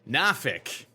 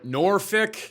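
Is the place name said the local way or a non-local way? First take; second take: local; non-local. First: The name is said the local way. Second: The name is said a non-local way. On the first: This is how people who live there say it. The speaker calls it right. "I think that's how the locals say it" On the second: This is how outsiders say it. The speaker calls it wrong. "definitely not Norfolk"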